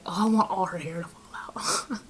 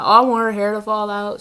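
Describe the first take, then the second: First: Mock whisper. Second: Said in the usual way. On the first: Client's hex request quoted.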